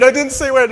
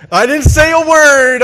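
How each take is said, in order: First: Said in the usual way. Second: Much louder and higher, laughing protest of innocence. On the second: Retold or imitated. Grandson protesting to grandpa, a loud high laughing protest. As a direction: insist you said nothing, loud and high.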